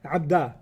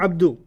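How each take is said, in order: First: The word ends in an 'a' vowel. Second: The word ends in a 'u' vowel. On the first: A person is being called by name. The speaker calls it right. "it has to be nasab" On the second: The word is in the ordinary subject form. The speaker calls it wrong. "not Abdu"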